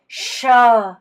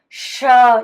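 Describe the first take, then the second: Both takes have the same delivery.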